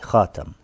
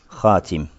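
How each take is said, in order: First: The second vowel is an open a sound. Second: The second vowel is a close i sound. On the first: This is the reading of one reciter, Asim. "Читал с фатхой" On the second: This is the reading of the other six reciters. "В их вариантах чтения как хатим"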